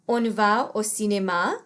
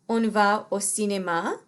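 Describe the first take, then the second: Both takes have the same delivery.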